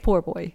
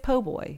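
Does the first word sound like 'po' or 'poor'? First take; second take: poor; po. First: The first word is said in full as 'poor'. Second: The first word is clipped to 'po'. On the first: The speaker calls it right. "It's poor boy" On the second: The speaker calls it wrong. "Many people think it's po' boy"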